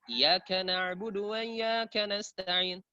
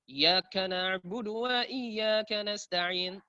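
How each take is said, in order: The two takes are said the same way.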